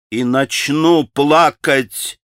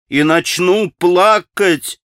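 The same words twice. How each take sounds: First: Tearful. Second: Slow, higher and louder repeat; the second time more insistent; tearful, rising. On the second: Grushenka answering Rakitin's taunt, insisting she'll cry. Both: A narrator's reading. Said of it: "приговаривала Грушенька".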